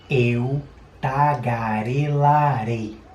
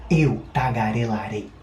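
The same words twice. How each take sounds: First: Spoken slowly with very exaggerated mouth movements. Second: Spoken at a moderate, somewhat quicker pace. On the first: "Tá vendo que eu exagerei bastante, né? Abri muito a boca" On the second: "Um pouco mais rápido agora"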